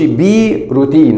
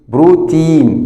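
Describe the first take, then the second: First: The first letter is said as a separate name. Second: The first sound blends straight into the syllable. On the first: The speaker calls it wrong. "ما نقولش بي روتين" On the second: The speaker calls it right. "تبقى برو ت ت ولا تي، بروتين"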